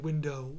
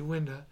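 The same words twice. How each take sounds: First: It is said in a standard accent. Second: It is said in a New York accent. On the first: "When I don't say window" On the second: "I say window"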